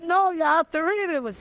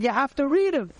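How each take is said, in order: First: Higher, acted-out insistent correction; emphatic insistence. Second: Retold firm reminder, pitched up; acting out a polite but firm correction; insistent instruction. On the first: Young volunteer correcting the man a second time, emphatically insistent. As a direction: press the retold point harder, pitched right up. Acts out repeating the instruction, more insistent. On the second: Young volunteer telling a man to read the card, insistent.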